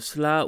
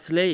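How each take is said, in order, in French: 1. C'est une syllabe qui se termine par un 'a' bref. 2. C'est une syllabe qui se termine par la voyelle 'ay'. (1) "et pas euh, Sla" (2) "on dit bien Slay"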